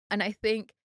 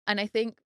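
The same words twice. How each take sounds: The two takes are said the same way.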